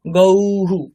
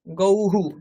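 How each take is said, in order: First: গৌহু with the final visarga said clearly as an echoing হু; visarga sounded out. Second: Said in the usual way. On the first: Shown as a demonstration. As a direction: stress the হু after গৌ, a bit louder. (গৌহু উচ্চারণে বিসর্গ স্পষ্ট করে হু বলা) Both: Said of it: "ওইরকম উচ্চারণ করতে হবে বিসর্গেরও".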